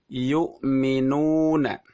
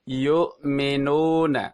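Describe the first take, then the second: First: The u vowel is said with fully rounded lips. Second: The u vowel is said with weakly rounded lips. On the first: The speaker calls it right. "Yang benar adalah" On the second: The speaker calls it wrong. "ketika mulut tidak e, monyong atau tidak maju dengan sempurna"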